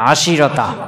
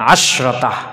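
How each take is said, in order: First: An i vowel comes after the sh sound. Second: There is no vowel after the sh sound. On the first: One tribe says it this way. "সিনের জের দিবে" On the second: Most speakers say it this way to make it lighter. "জমহুর বলে আশরতা"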